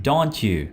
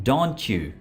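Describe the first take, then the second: Both takes have the same delivery.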